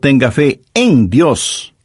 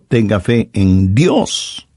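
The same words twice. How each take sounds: First: The stress is on the word fe. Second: The stress is on the word Dios.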